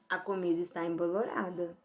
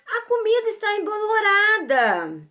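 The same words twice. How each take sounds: First: It is said as a plain statement. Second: It is said with a surprised tone.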